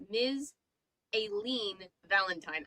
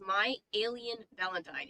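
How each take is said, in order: First: "Aileen" said ay-LEEN, second syllable long; corrected Aileen. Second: "Alien" said AY-lee-un, like the extraterrestrial; misread Alien. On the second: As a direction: say "Alien" with the stress on the first syllable. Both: Shown as a demonstration. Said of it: "I read that as".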